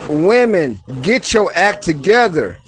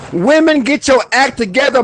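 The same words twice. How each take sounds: First: Calm, loving version of the command; with love. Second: Higher and louder, frustrated call-out; fired-up command to women; with emotion. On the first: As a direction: say it kindly after the heat. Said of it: "but then do the love". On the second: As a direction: demand it with heat. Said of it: "Put some emotion in". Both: Shown as a demonstration.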